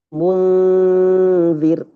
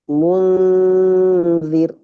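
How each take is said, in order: No difference in how they are said.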